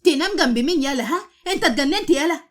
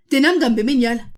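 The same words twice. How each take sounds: First: Angry outburst, louder and higher; screaming at him. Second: Louder, outraged repeat of the shout; angry yell. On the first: A narrator's reading. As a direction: yell at him in outrage. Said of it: "بقت عمالة تصرخ". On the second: Acted. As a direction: shout it back at him, furious. Wife repeats her angry shout.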